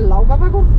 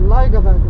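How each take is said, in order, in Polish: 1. Pierwsza samogłoska brzmi jak 'ow', tak jak jest napisana. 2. Pierwsza samogłoska brzmi jak 'oy'. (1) "Nie Laugavegu" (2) "A i U czyta się jako OI"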